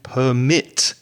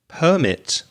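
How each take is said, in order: First: It carries the stress pattern of the verb. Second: It carries the stress pattern of the noun. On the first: It means to allow something. "permit for the verb" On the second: It names a document giving permission. "permit for the noun"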